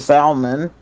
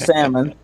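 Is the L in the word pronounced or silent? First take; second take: pronounced; silent. First: The L sound is pronounced in the word. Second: The L sound is silent in the word. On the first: The speaker calls it wrong. "pronounce the L in salmon" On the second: The speaker calls it right. "instead of salmon"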